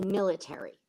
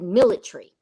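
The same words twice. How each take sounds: First: It is said in an American way. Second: It is said in a British way.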